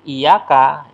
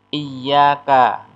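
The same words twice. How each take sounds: First: The y sound is short and single. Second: The y sound is held long and doubled. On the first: It means to the sun. The speaker calls it wrong. "itu artinya kepada matahari" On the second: It means only to you. The speaker calls it right. "iyyaka pakai tasdid"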